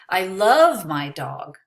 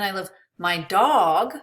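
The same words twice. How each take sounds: First: The word love carries the emphasis. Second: The word dog carries the emphasis. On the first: The feeling is more than liking. "I don't just like her, I love her" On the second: Another pet may not be loved. "Maybe I don't love my cat"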